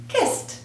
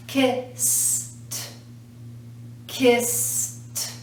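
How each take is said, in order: First: "Kissed" joined up as "kist"; one syllable. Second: "Kissed" split as "kiss ... t"; sounded-out ending. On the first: Teacher showing no added syllable, "Kissed" blended as "kist". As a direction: say "Kissed" in one quick beat ending in "t". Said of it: "we're not adding a syllable". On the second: Teacher showing sound against spelling, "Kissed" broken into "kiss ... t". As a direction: stretch the "s", then a separate "t" in "Kissed". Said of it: "but that's the sound". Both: Shown as a demonstration.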